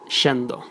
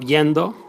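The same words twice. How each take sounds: First: The y is said as a sh sound. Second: The y is said as a y sound.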